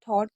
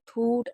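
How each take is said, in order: First: The vowel sounds like 'aw'. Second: The vowel sounds like 'oo'. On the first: The speaker calls it right. "इसको क्या पढ़ेंगे? थॉट, क्योंकि जी H हमारा silent रहता है" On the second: The speaker calls it wrong. "बहुत से लोग इसे क्या पढ़ते हैं? ... लेकिन वो गलत है"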